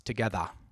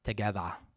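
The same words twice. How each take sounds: First: The word ends with an 'ah' sound. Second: The same.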